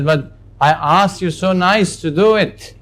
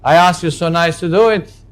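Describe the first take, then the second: First: It is said in a softer voice. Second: It is said in a stronger voice.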